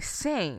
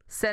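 First: The vowel rhymes with rain. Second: The vowel does not rhyme with rain. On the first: "They say Saint. ... It rhymes with rain" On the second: "Sen is the correct way"

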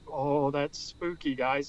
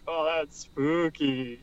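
First: It sounds genuinely scared. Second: It sounds playful and joking.

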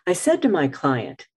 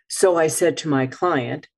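First: It opens with a silent pause. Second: It opens with the filler word so. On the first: The speaker calls it right. "I could say" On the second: The speaker calls it wrong. "instead of saying"

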